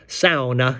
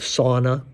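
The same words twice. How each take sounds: First: It is said with the Finnish pronunciation. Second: It is said with the usual English pronunciation.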